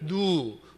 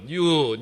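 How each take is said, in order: First: It is said without the y glide, as noo. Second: It is said with the y glide, as nyoo. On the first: The speaker calls it wrong. "뉴라는 발음이 잘 안 돼가지고 늘 누" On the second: The speaker calls it right. "뉴라고 해보라고"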